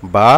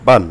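First: "বা" with a single short fatha, cut off clean. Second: "বান" with a nasal n added for double fatha; tanween ending. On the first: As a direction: say "বা" short and open. (এক জবরে ছোট করে "বা") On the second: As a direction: close "বান" with a clear n sound. (দুই জবরে "বান" নুন যোগ করে) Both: Shown as a demonstration. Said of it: "তাহলে বা দুই জবর বান".

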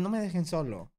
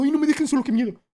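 First: Sad plea. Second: High, loud whiny mock fear; mock panic. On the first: Pretend. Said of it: "es más bien". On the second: Streamer mocking people afraid of being alone, high whiny panic. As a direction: ham up a scared kid begging not to be left. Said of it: "nadie es como".

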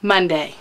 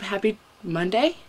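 First: MONDAY falling like a full stop; "Monday" confirmed with a falling tune; settled statement. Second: MONDAY rising into a question; unsure greeting, "Monday" turned up like a question. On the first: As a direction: state "Monday" firmly, pitch dropping at the end. Settles which day it is. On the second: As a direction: ask "Monday" unsurely, pitch lifting at the end. Unsure which day it is. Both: Real, not acted.

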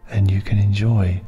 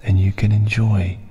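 No difference in how they are said.

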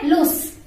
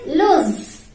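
First: Loose with a hissing s, lus; wrong way. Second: Loose ending in a buzzing z, luz, said slowly; right way. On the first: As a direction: say loose ending in a sharp s. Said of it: "you don't say loose". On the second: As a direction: stretch out loose and end it on a voiced z. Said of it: "that's not a loose. That is loose". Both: Shown as a demonstration.

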